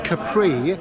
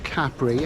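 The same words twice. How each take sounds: First: The last syllable rhymes with 'sea'. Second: The last syllable does not rhyme with 'sea'. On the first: The speaker calls it wrong. "change the pronunciation to Capri to rhyme with sea" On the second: The speaker calls it right. "that's the correct pronunciation"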